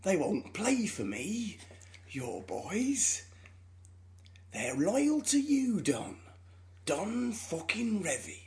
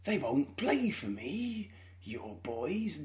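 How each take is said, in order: First: Put-on slow, drawn-out Northern drawl with a hushed edge on boys; half-whispered, pleading drunk Clough; Brian Clough impression. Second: Put-on slow Northern drawl, boys dropped much softer; drawn-out, pleading drunk Clough; Brian Clough impression. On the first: Drunk Clough ringing Don Revie late at night, slow Northern drawl. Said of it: "my impression of Michael Sheen doing an impression of Brian Clough". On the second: Repeating the Damned United line for Joel, slow Clough drawl. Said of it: "pretty accurate to how it sounds in the film".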